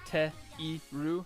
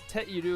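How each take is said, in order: First: The middle i sound is kept, giving te-iru. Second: The middle i sound is dropped, giving teru. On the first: This is the full form. "is actually te-iru" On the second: This is the quick spoken form. "when you speak quickly, you can leave off the e sound"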